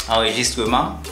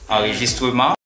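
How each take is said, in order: The two takes are said the same way.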